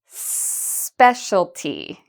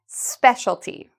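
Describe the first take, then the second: First: The word is said at a slower pace. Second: The word is said at a fast pace.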